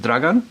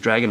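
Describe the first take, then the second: First: The name is said with Croatian pronunciation. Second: The name is said like the English word dragon. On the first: This is the name's original form. "it's Croatian, and you pronounce it Dragan" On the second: This is how others read it from the spelling. "it's spelt sort of like dragon, and everyone sort of just said it was dragon"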